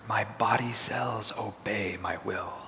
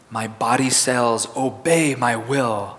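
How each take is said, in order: First: It is said in a whisper. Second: It is said in an ordinary speaking voice. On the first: "And now in a whisper" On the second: "Now in a regular speaking voice"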